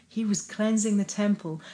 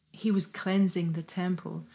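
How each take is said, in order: Both takes have the same delivery.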